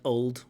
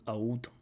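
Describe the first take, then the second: First: The L sound is clearly pronounced. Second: The L sound is dropped, vowel-like. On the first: "I want to hear that L" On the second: "I know in parts of London"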